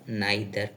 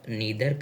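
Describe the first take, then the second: First: The first vowel sounds like 'eye'. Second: The first vowel sounds like 'ee'. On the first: "या नाइदर कहें, उससे कोई फर्क नहीं पड़ता" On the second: "इसको आप नीदर कहें"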